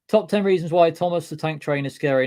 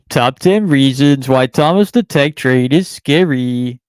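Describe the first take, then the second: First: It is read in his normal voice. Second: It is read in a put-on voice.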